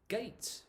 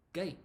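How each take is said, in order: First: Gate said high, with a clear final t. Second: Gate said as gei, falling, no t; gate without t. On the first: Teacher first showing the full form of gate. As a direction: say Gate crisply, releasing the t. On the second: Teacher showing the natural gate with no t. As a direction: drop the t at the end of gate. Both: Shown as a demonstration. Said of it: "more natural not to say the t".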